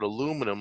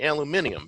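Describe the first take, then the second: First: It is said the American way, with four syllables. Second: It is said the British way, with five syllables.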